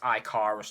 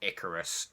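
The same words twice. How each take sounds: First: The name is pronounced the German way. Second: The name is pronounced the English way. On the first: The speaker calls it right. "the German way" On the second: The speaker calls it wrong. "sounds a bit stupid"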